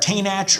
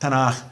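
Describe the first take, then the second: First: The ch is like English church. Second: The ch is a soft throaty sound. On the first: The speaker calls it wrong. "nothing will peg you as a newcomer faster than saying" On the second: The speaker calls it right. "It's a softer ch"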